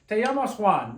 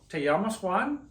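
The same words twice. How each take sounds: First: The voice falls at the end, like a statement. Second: The voice rises at the end, like a question. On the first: It tells someone what their name will be. "Unless you're a director of a film or a play and you'll say" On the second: It asks someone whether that is their name. "you might use it as a question ... the inflection of your voice changes"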